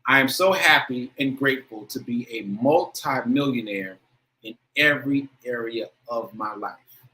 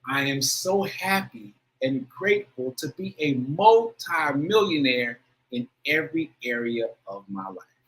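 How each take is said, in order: First: It is said plainly, with less feeling. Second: It is said with strong, heartfelt feeling.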